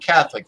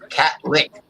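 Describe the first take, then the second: First: The first syllable has a "th" sound, like "cath". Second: The word sounds like "cat lick", with a hard t.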